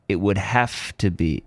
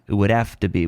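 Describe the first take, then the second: First: The h in 'have' is clearly pronounced. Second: The h in 'have' is dropped and linked. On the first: "You can also say the H" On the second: "We drop the H, the H is reduced"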